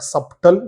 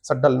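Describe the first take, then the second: First: A clear b sound is heard before t. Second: The b is silent, no b sound heard. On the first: The speaker calls it wrong. "Not ಸಬ್ಟಲ್" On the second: The speaker calls it right.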